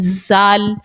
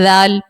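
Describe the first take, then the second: First: The consonant is made with a whistling hiss. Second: The consonant is soft with no whistling hiss. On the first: The speaker calls it wrong. "इसी तरह ज़ाल पढ़ती हैं ज़ाल" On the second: The speaker calls it right. "वो तो नरमी से पढ़ने वाला हर्फ है ज़ाल"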